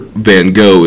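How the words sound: The name is said in an American way. This is the form adapted by Americans. "is the Americanized pronunciation"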